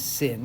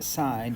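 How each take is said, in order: First: The vowel is short, like in 'sin'. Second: The vowel is long, like in 'sign'. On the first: The speaker calls it wrong. "we don't pronounce this sin" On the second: The speaker calls it right. "We still pronounce it sine"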